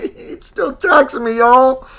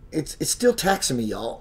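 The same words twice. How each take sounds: First: High, loud, slow mock complaint; hammed-up high whine. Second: Said in the usual way. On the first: Shown as a demonstration. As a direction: wail it in an exaggerated voice. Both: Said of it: "Listen, listen to me".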